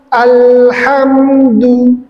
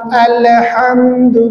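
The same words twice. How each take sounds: First: The L is held cleanly with no vowel bounce. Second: A short vowel bounce follows the L sound. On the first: The speaker calls it right. "diselesaikan dulu alham alhamdu" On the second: The speaker calls it wrong. "muncul pantulan alhamdu, bukan"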